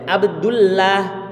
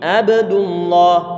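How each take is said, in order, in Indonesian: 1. L dalam Allah terdengar tipis dan ringan. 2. L dalam Allah terdengar tebal dan berat. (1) "Nggak boleh" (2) "dibaca tebal"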